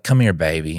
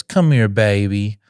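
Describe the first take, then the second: First: Said in the usual way. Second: Put-on slow, drawn-out child's echo; lightly voiced child repeating a phrase; imitating young son. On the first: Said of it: "I'll be like". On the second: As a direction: echo it back like a little boy, stretched out. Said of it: "And he goes".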